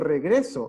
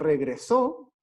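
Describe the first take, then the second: First: The stress falls on the second syllable. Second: The stress falls on the last syllable. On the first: It is the present historic form. "la voz va a estar cargada en la segunda sílaba" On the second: It is the past form. "cargada la voz, el acento entonces, en la última sílaba"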